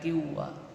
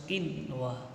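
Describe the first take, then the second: First: The n before w is merged away. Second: The n before w is pronounced clearly. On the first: The speaker calls it wrong. "enggak boleh dibaca" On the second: The speaker calls it right.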